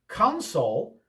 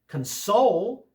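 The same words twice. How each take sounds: First: The stress is on the first syllable. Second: The stress is on the second syllable. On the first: It is an area for a machine's controls. "with the accent on the first syllable" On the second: It means to comfort someone. "with the accent on the second syllable is a verb"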